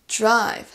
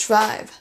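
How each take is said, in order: The two takes are said the same way.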